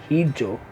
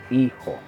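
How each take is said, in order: First: The middle consonant is a j sound. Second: The middle consonant is an h sound. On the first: The speaker calls it wrong. "instead of saying hijo" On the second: The speaker calls it right. "the H in Chabacano is silent... the J becomes the H"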